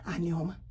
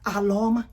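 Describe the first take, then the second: First: The name is said with an 'n' sound. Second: The name is said with an 'l' sound. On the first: This is how most people say the name. "I know you all pronounce it Anioma" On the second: This is the speaker's own way of saying the name. "I call it Aloma"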